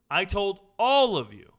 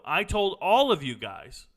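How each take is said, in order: First: Repeated louder and slower, leaning on all; insistent, raised and drawn-out reminder; emphatic repeat. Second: Said in the usual way. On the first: Real, not acted. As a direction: drive the point home to the audience.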